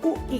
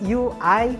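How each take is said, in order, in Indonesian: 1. Huruf-huruf itu disebut dengan bunyi huruf Indonesia. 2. Huruf-huruf itu disebut dengan bunyi huruf Inggris. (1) "bukan dibaca U I ya" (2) "tapi U I and U X"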